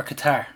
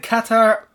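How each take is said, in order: First: Qatar with a short first vowel, stressed on the end; stress on second syllable. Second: Qatar with first syllable stressed, a full open 'a'. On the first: Co-host offering the alternative pronunciation, Qatar stressed on the second syllable. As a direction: say Qatar as kuh-TAR. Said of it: "He's known for his pronunciations". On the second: Co-host asking how it is pronounced, Qatar stressed on the first syllable. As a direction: say Qatar as KAT-ar, weight up front. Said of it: "this is a weekly debate". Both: Shown as a demonstration.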